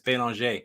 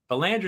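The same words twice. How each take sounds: First: The name is said with a French pronunciation. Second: The name is said with an English pronunciation. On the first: This is how it is said in Canada or France. "unless I'm north of the border or over in France, and then it's Belanger" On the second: This is how the owner of the name normally says it. "Belanger is how I pronounce it"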